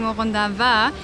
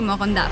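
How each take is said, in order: First: The final a vowel is pronounced. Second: The final a vowel is dropped. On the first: "why I'm not saying Morondava" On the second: "they don't pronounce the A in the end of the word"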